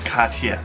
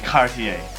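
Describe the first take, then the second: First: It is said with a French accent. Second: It is said with an American English accent. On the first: "the real pronunciation again is the French Cartier" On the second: "Americans would probably say Cartier"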